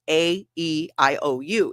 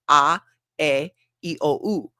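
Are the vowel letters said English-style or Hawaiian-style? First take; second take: English; Hawaiian. First: The vowels are named with English letter sounds. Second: The vowels are named with Hawaiian vowel sounds. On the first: "in English it's" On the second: "In Hawaiian it's"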